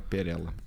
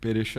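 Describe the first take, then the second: First: The middle consonant is pronounced like l. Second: The middle consonant is pronounced like sh.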